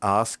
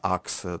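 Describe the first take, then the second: First: The word ends with an 'sk' sound. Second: The word ends with a 'ks' sound. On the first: This is how the word is usually said in English. "když se chceš anglicky zeptat, řekneš" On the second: This is how people in Nigeria say the word. "no tam se říká ax"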